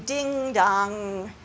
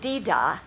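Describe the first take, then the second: First: The NG sound is pronounced fully and clearly. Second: The NG sound is dropped completely. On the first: "we don't want to do ding-dong when really pronounce the NG" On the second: "if you really left off the NG, you would be saying dee-da, which is really wrong"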